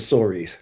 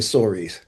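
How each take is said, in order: First: The name is pronounced in a casual, everyday way. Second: The name is pronounced in a casual, everyday way.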